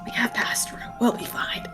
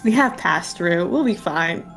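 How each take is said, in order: First: It is whispered very quietly. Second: It is spoken in a normal, audible voice.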